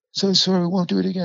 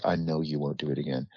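First: Put-on much higher, pleading voice of a scared kid; whimpering plea. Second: Softer, lower, deadly calm; quiet cold threat. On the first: Kid pinned down pleading he won't come back, high and scared. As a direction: beg high and fast, near tears. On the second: Retold or imitated. Teller answering the pleading kid, soft and menacing. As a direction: say it low and icy, no need to shout.

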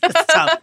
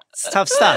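First: Said in the usual way. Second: "It's tough stuff" wailed much higher, mock sob on "stuff"; fake-cry "It's tough stuff" with a rising whimper.

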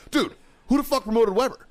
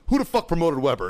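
First: Much higher-pitched insistent question; exasperated demand. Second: Raised-pitch indignant question; angry demand. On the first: Marine pressing first sergeant for an answer, exasperated demand. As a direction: push the question up in outraged disbelief. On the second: Marine storming into first sergeant's office, angry demand. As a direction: burst in demanding an answer. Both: Retold or imitated.

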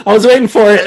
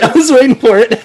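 First: Laughing. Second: Repeated through giggles, a bit higher; laughing. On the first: Laughing at crabs joke. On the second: Cohost laughs at the crab joke, repeating it while laughing. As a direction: laugh it out a second time. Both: Real, not acted.

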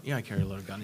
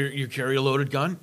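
First: Low, softer reply, falling on GUN; matter-of-fact answer. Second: LOADED GUN as a slow, lower question, rising at the end. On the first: Gun owner answers a non-gun friend, matter-of-fact. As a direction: answer "loaded gun" low and settled, no question. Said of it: "I talk to my non-gun friends". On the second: Non-gun friend asks the speaker, questioning. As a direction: ask "loaded gun" slowly, voice lifting on GUN. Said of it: "they'll say stuff like". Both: Retold or imitated.

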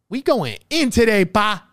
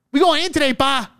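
First: Said in the usual way. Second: Hyped yell. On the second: Real, not acted. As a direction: shout it out like you're fired up. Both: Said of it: "I'm fucking yelling out here".

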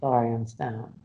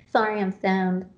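First: Stoned. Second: Lazy, dazed stoned voice. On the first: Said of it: "She is so stoned". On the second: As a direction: sound a bit stoned and loose. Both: Real, not acted.

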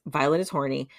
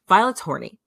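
First: Said in the usual way. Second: Higher and louder, relishing the gossip; gleeful reveal. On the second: Real, not acted. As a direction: announce it with delight.

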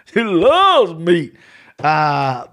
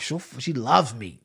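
First: Slow, laughing and louder; a drawn-out laughing punchline. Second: Said in the usual way. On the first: Acted. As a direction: she loves meat said slowly through a laugh. Repeats the joke, laughing.

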